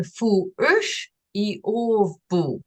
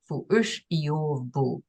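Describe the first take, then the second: First: "fu ush i ov bu" drawn out, each syllable separate, stress on "ush"; Aui sentence, slow. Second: "Fu ush i ov bu" at normal speed, lower and softer, stress on "ush"; Aui sentence, repeated. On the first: Teacher introducing a new Aui sentence, slow first reading. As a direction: sound out "fu ush i ov bu" slowly and deliberately. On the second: Teacher quietly repeating the Aui sentence after translating it. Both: Shown as a demonstration. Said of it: "I not see you".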